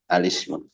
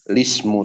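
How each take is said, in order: First: The word begins with an A vowel. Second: The word begins directly with an L sound. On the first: "atau bisa juga dibaca alismu" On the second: "bisa dibaca dengan lismu saja"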